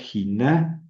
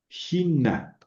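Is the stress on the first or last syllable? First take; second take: last; first. First: The stress is on the last syllable. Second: The stress is on the first syllable. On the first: The speaker calls it wrong. "el acento sobre la n- alfa, y entonces diría giná" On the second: The speaker calls it right. "el acento lo pronuncio sobre la iota"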